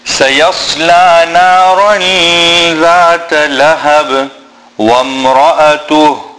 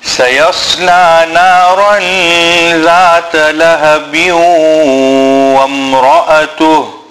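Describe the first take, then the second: First: It stops on lahab, then continues. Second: Lahab flows into wamra'atu with a nasal sound. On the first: "I'm going to read it in both ways" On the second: "continue and not stop on لهب"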